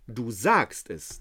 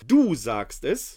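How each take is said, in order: First: The word du carries no special stress. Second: The word du carries strong stress.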